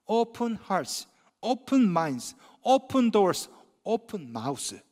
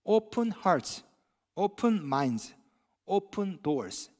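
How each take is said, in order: First: Slogan with added line. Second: Slogan read slowly. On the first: Pastor adding his own line to the slogan, slow. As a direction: build the list then soften on open mouths. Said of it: "한 가지를 더 애드하고 싶". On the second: Pastor quoting the church slogan, slow and deliberate. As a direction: Open hearts open minds open doors drawn out word by word. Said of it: "이런 슬로건이 있습니다". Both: Shown as a demonstration.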